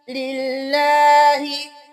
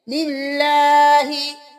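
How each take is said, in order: First: The l sound is said thin and light. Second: The l sound is said thin and light.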